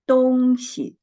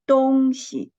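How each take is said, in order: Both takes have the same delivery.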